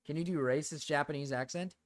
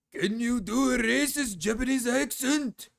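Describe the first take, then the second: First: Said in the usual way. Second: High, slow put-on Japanese accent; exaggerated, drawn-out caricature of a Japanese accent; mock Japanese accent. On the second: Shown as a demonstration. Streamer answers a chat request, mock Japanese accent.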